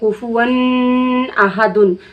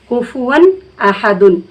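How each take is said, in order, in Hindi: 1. 'ahadun' से पहले 'n' को रोककर नाक से पढ़ा जाता है। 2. 'ahadun' से पहले 'n' साफ़ और जल्दी पढ़ा जाता है, नाक में रोके बिना। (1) "गलत हो जाए क्योंकि गुन्ना हो जाएगा" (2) "गुन्ना नहीं करना है बल्कि हमें इजहार जाहिर करके पढ़ना है"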